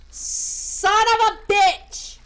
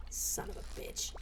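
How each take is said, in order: First: Loud, high, drawn-out curse; exasperated shout. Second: Unvoiced, very soft cursing; muttered curse. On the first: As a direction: explode slowly on each word. Same curse erupts louder. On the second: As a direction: swear under your breath. Cursing at fishing, first take under breath. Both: Real, not acted.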